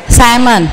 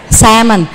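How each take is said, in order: Both takes have the same delivery.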